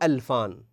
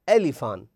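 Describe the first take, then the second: First: The L is said without an i vowel after it. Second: The L is said with an i vowel after it. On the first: The speaker calls it wrong. "مو ألفان" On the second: The speaker calls it right. "ألفان بكسر اللام"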